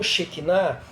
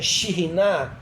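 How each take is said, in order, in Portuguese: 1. A palavra é dita como Shekinah. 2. A palavra é dita como Shiriná. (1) "e não Shekinah" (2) "na sua pronúncia original é Shiriná"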